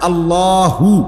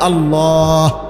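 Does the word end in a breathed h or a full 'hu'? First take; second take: full hu; breathed h. First: The word ends with a full voiced 'hu' syllable. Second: The word ends with a breathed-out h sound.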